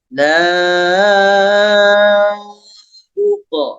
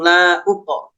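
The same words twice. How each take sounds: First: The first vowel is held long before continuing. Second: The first vowel is cut short and rushed. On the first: The speaker calls it right. "ditahan dulu" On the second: The speaker calls it wrong. "jangan langsung langsung la uqo, jangan begitu"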